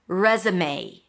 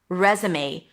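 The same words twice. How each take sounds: The two takes are said the same way.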